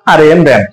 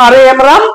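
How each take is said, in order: First: "র্যাম" with English "æ", lower and falling; RAM read as "ram". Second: "রাম" with a long open "aa", tune rising; RAM read as "raam". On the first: Teacher shows student two readings, "র্যাম" with æ, falling. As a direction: spell it out, then say "র্যাম" with æ. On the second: Teacher shows student two readings, "রাম" with open aa. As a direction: spell it out, then say "রাম" as raam. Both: Shown as a demonstration. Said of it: "তো তোর তো উচ্চারণ রামও".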